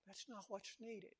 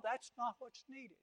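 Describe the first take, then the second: First: Repeated much softer; preacher repeating the point in a hush; soft echo. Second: Said in the usual way. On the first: Shown as a demonstration. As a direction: let it sink in quietly.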